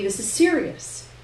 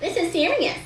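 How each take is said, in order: First: It is said in a normal voice. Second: It is said in a high-pitched, nasal voice.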